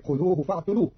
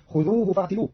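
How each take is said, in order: First: فاعتلوه said "fa'tuluh", u after the t; ta with damma. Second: Said in the usual way. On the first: Shown as a demonstration. Teacher showing Qalun's reading, فاعتلوه with "tu". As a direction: put "tu", not "ti", in فاعتلوه. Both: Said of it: "بضم التاء".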